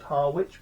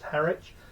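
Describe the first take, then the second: First: The word is said the way it is spelt. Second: The word is said unlike its spelling. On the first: "It's spelt Harwich" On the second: "I've no idea why it's pronounced Harwich"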